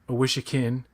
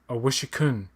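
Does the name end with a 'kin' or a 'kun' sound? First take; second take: kin; kun. First: The name ends with a 'kin' sound. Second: The name ends with a 'kun' sound. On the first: This is how an actor in the show said it. The speaker calls it wrong. "Jason Isaacs said "Awishikin,"" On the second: This is the name's actual pronunciation. The speaker calls it right. "but it's actually uh, "Awishikun," ... It's the K U N at the end"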